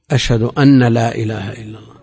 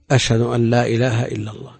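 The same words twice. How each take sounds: First: أن pronounced أنّ, nun held double; doubled nun on أن. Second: أن said short with a single light nun. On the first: Retold or imitated. Scholar mimics students' common mistake, doubled nun on أن. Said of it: "هذه نسمعها". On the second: Shown as a demonstration. Scholar to students demonstrating the correct light أن. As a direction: keep أن light and quick, no doubling. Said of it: "هنا مخففة".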